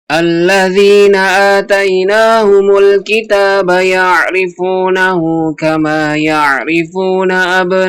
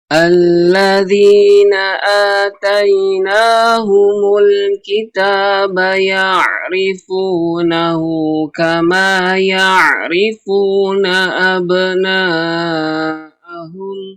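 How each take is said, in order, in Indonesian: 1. Ayat ini dibaca dengan tempo cepat. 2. Ayat ini dibaca dengan tempo lambat. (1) "dicepatkan lagi temponya" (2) "yaitu dengan perlahan"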